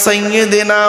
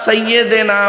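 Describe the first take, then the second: The two takes are said the same way.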